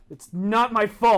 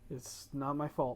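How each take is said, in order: First: It is said much louder, almost shouted. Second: It is said at a normal, quiet volume.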